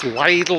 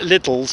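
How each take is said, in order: First: The name ends without any s sound. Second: The name ends with an added s sound. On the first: The speaker calls it right. "I think it's pronounced Lidl" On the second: The speaker calls it wrong. "Some people call it Lidl's, but I don't think you pronounce it like that"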